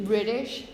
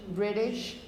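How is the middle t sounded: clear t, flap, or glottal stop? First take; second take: flap; flap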